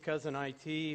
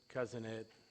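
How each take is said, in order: First: IT is said as two separate letters. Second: IT is said as the single word it. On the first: "my company's Cousin I T" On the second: "my wife pronounces it Cousin It, like the Addams Family"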